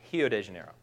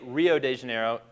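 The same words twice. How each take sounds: First: The R in Rio sounds like an H. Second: The R in Rio is an English R. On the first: "Brazilians would say Rio de Janeiro" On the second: "we say Rio de Janeiro"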